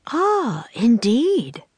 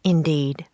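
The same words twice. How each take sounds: First: High, swooping "ah" of realisation; pitched well up, pleasantly surprised; impressed interest. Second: Said in the usual way. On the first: A narrator's reading. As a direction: react with lifted, intrigued voice. Governor reacts to boy's story.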